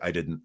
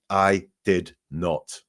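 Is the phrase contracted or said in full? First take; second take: contracted; full. First: The negative is contracted into one word. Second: The negative is said as two full words. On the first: This is the normal casual way of speaking. "in conversational um, English, we tend to say" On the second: The speaker is trying to sound formal and believable. "liars will sometimes talk very formally"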